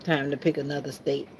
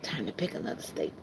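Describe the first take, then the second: First: Said in the usual way. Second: Breathy whisper of the same line; hushed murmur, almost no voice. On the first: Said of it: "repeats in whisper". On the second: Shown as a demonstration. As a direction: whisper it to yourself as an aside. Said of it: "repeated line".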